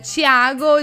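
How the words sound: The T sounds like 'ch', as in general Brazil.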